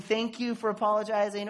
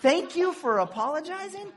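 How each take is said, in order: First: Said in the usual way. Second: High, loud disbelieving echo of the phrase; incredulous repeat. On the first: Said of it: "they don't get away with saying". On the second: Real, not acted. Pastor mocking a bad reply to an apology, incredulous and loud. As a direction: throw the phrase back in disbelief. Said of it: "Oh, come on".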